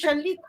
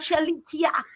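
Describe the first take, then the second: First: The name has no extra vowel before the end. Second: The name has an extra vowel before the end. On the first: The speaker calls it right. "It is Shalika. ... the last I is silent" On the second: The speaker calls it wrong. "her name is not Shalikia"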